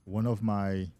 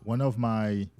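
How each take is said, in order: Both takes have the same delivery.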